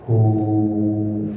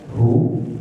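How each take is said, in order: First: The vowel is held for six beats. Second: The vowel is held for one short beat. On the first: "Ada yang dibaca enam harokat" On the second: "Ada yang dibaca satu harokat hu"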